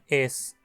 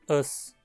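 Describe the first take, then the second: First: The pronoun is said fully with its vowel. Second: The pronoun is said unstressed and reduced. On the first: The speaker calls it wrong. "e não es" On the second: The speaker calls it right. "escrito da mesma forma, mas pronunciado átono"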